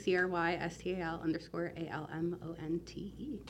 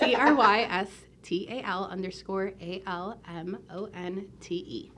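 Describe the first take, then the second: First: It is spelled at a normal, quicker pace. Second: It is spelled slowly and carefully.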